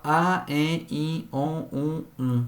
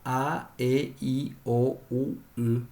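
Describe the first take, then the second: First: "a, e, i, o, u, y" all nasalised, each separate; nasal "a, e, i, o, u, y", evenly spaced; nasal vowels. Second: "a, e, i, o, u, y" as pure oral vowels, each separate. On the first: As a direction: recite "a, e, i, o, u, y" through the nose. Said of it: "Pu'ae tiguáva". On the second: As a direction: recite "a, e, i, o, u, y" through the mouth, without nasality. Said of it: "Pu'ae juruguáva". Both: Shown as a demonstration.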